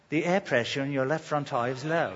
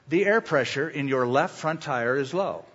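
First: It is said in a British accent. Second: It is said in the speaker's normal accent.

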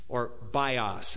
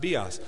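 First: The word is said the anglicized way. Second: The word is said the Greek way. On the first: "as we would say" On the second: "but it's pronounced bios"

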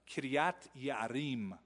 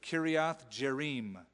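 First: The name is said with a Hebrew pronunciation. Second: The name is said with an anglicized pronunciation. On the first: The speaker calls it right. "would be the right way" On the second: The speaker calls it wrong. "I mispronounced that on purpose"

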